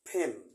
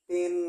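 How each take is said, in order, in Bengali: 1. শব্দটি শ্বাসযুক্ত p ধ্বনি দিয়ে উচ্চারণ করা হয়। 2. শব্দটি সাধারণ p ধ্বনি দিয়ে উচ্চারণ করা হয়। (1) "কিন্তু দুই ঠোঁট লাগাতে হবে ফেন।" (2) "পেন না। আমরা পেন বলতে অভ্যস্ত, যেটা ইন্ডিয়ান উচ্চারণ।"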